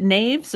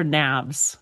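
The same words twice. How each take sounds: First: NAVES said with a long A; long-A pronunciation. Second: NAVS said with a short A; "navs" with a flat short A as in "nap"; short-A pronunciation. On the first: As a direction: rhyme "naves" with waves. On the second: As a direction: say "navs" with the vowel of "have". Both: Shown as a demonstration. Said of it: "Is it naves or navs?".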